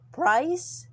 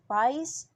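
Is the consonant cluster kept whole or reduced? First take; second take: kept whole; reduced. First: The full consonant cluster is pronounced. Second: Only the first consonant of the cluster remains.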